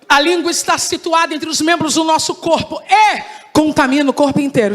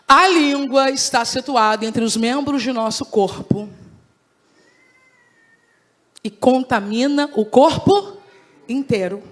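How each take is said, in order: First: The sentence is read at a normal pace. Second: The sentence is read slowly and deliberately.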